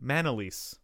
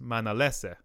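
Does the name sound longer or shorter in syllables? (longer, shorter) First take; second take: shorter; longer. First: The name is said with one fewer syllable. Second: The name is said with one more syllable. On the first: This is the pronunciation adopted locally. "Which is one less syllable" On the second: This is the family's original pronunciation. "especially my dad or anyone in the Philippines with my last name"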